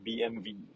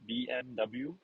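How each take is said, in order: First: The letters are named in German. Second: The letters are named in English. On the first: "if you talk to German, it's actually called" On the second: "we read it as an English alphabet"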